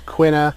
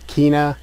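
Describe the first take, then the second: First: The name is said in an English style. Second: The name is said in a Spanish style. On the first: "Quina is probably what I'll end up sticking with" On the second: "like a Spanish take on the pronunciation"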